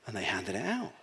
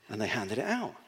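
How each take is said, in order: First: Low, hushed repeat; softer still. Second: Quieter repeat. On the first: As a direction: let the words fade away, hushed. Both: Shown as a demonstration. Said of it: "handed it out, repeated".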